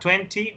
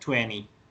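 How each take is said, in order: First: It is said in a British accent. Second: It is said in an American accent. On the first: "si la pronunciación es británica" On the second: "o es americana"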